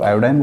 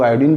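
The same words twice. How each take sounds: First: आयोडीन pronounced "aa-yo-dain"; आयोडीन ending like "fine"; "-ine" pronunciation. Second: आयोडीन pronounced "aa-yo-deen"; आयोडीन ending like "seen"; "-een" pronunciation. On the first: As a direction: give आयोडीन an "eye" vowel in the last syllable. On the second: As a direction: give आयोडीन a long "ee" in the last syllable. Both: Shown as a demonstration. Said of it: "कुछ लोग आयोडीन बोलते हैं".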